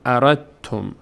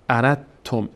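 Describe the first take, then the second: First: The d merges fully into the t. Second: A d sound is heard before the t. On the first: The speaker calls it right. "ما اینجا دیگه دال رو نمیخونیم" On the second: The speaker calls it wrong. "نمیگیم اردتم"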